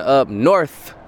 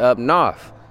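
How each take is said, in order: First: North is said in a plain standard way. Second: North is said with a Southern drawl. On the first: "instead of saying up north" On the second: "From the South, a lot of people had that draw. they'd say up north"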